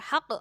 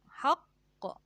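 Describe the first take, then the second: First: The final consonant is short and released at once. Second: The final consonant is doubled and held before release. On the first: The speaker calls it wrong. "Jadi nggak boleh haq" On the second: The speaker calls it right. "harus ada tasydidnya dulu ditampakkan"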